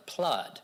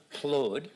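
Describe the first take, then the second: First: Plud with the UH of blood; rhymes with blood. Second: Plud with the short OO of good; rhymes with good. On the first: Speaker tests a nonsense word's third sound, plud rhyming with blood. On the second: Speaker tests a nonsense word's second sound, plud rhyming with good. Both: Shown as a demonstration. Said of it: "knowing how to sound it out".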